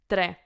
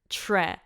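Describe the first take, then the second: First: The T and R are separate, with rolled R. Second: The T and R blend into an English tr. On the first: The speaker calls it right. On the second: The speaker calls it wrong.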